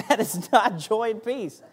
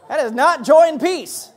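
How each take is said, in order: First: Said in the usual way. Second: Loud, higher words through laughter; laughing. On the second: Real, not acted. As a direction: still laughing as he says it.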